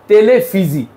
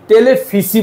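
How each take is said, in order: First: The consonant before the end sounds like z. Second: The consonant before the end sounds like s. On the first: The speaker calls it right. "উচ্চারণ হয়ে যায় জ" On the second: The speaker calls it wrong. "টেলিফিসি বলি না কিন্তু"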